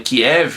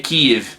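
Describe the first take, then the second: First: The name is said in the usual Brazilian way. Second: The name is said in the local native way. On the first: This is how people in Brazil say it. The speaker calls it wrong. "No Brasil todo mundo fala Kiev" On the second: This is the correct pronunciation. The speaker calls it right. "a pronúncia certa aí é Kiev"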